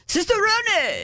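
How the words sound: It is said with an exaggerated Italian accent.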